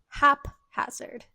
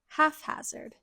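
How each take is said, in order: First: The word is said slowly without an F sound. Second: The middle of the word has an F sound. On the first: The speaker calls it right. "I'm going to say this slowly. It's haphazard, no F sound" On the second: The speaker calls it wrong. "I thought this word was haphazard"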